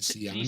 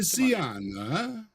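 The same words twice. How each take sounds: First: It is said in a plain, unaccented way. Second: It is said in an Italian accent.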